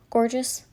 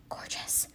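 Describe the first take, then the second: First: Said in the usual way. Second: Hushed, breath-only GORGEOUS; whispered gush. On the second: Real, not acted. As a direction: whisper it in admiration. Repeats it, dropping to a whisper.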